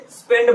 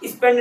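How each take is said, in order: First: "स्पेंड" as "spend", no vowel in front; correct initial s. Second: "स्पेंड" said as "ispend"; wrong added vowel. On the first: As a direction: open "स्पेंड" directly on the s. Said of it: "स्पेंड बोलते हो". ("स्पेंड" सीधे आधे स से) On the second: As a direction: put a short i before "स्पेंड". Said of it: "स्पेंड नहीं बोलते". ("स्पेंड" को "इस्पेंड" बोलकर) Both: Shown as a demonstration.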